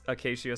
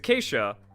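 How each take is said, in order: First: It is pronounced the way it is spelled. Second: It is pronounced differently from its spelling. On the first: The speaker calls it wrong. "I pronounced it as it looks, and that's not quite correct" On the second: The speaker calls it right. "because it's acacia"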